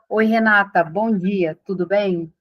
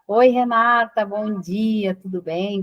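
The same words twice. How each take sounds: First: The greeting sounds formal and distant. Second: The greeting sounds warm and familiar. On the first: The caller is a stranger. The speaker calls it wrong. "se eu falar assim" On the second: The caller already knows the person. The speaker calls it right. "eu sempre tento fazer com que a pessoa pense que eu a conheço"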